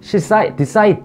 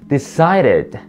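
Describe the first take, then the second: First: The d sound is a hard, full d. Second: The d sound is a soft r-like flap. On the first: The speaker calls it wrong. "She decided 아니고요" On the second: The speaker calls it right. "read처럼 발음하시면 좋아요"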